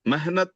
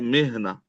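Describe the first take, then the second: First: The word ends with a clear t sound. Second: The word ends on an open vowel. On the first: The speaker calls it wrong. "मेहनत नहीं है" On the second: The speaker calls it right.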